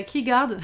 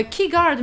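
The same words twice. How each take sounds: First: Said in the usual way. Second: Put-on loud, slightly British-accented name. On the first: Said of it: "je sais pas pourquoi j'ai dit ça". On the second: Streamer thanking a new follower, British accent. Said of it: "j'ai dit ça avec l'accent britannique".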